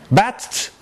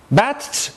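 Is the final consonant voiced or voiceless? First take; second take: voiceless; voiceless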